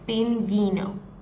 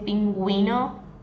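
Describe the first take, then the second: First: The u after the g is silent. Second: The u after the g is pronounced. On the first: "If you don't have the two dots over the U in this case, it would sound like this" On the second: "when you put the U with two dots, you're going to pronounce the U"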